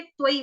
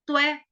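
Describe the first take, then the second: First: त्वई as "tva-ee", gliding from a to ee; Sanskrit AI glide. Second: त्वै as "tvae", one open vowel; Hindi-style AI. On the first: Teacher shows the Sanskrit way, त्वई gliding into a clear ee. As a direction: say त्वई with two audible vowel sounds. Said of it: "त्वई बोलेंगे". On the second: Teacher shows what to avoid, त्वै with one open ae sound. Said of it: "यहाँ पे त्वै नहीं बोलेंगे". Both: Shown as a demonstration.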